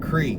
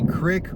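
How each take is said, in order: First: The vowel is long, like in 'seek'. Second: The vowel is short, like in 'sick'. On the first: "or creek?" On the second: "Do you say crick"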